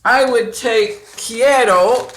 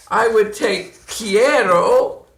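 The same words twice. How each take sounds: First: Quiero said louder with a rise; quiero again, a bit louder. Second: Quiero said slowly, each sound clear; slow careful quiero. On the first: Teacher repeating quiero louder for students. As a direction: repeat quiero for the class to hear. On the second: Teacher slowly showing the word quiero. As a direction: spell out quiero for the class. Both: Shown as a demonstration. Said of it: "let me show you".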